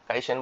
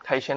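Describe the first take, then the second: First: The first consonant has no breathy puff. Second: The first consonant has a breathy puff. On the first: "কাইশাইন বললেও চলে" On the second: "একটু খয়ের মতো হয়"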